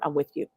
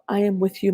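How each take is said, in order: First: It is said briskly and matter-of-factly. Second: It is said softly and tenderly. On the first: A no-nonsense push to keep going. "It was very much like, okay, look" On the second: A gentle, comforting reassurance was expected. "I was looking for like something like, oh"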